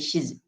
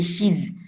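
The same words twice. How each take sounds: First: The word is said short and quick, unstressed. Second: The word is said fully, with a stressed vowel. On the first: The speaker calls it right. "very a short one, yeah, uh, very quick one" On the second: The speaker calls it wrong. "you don't say she's"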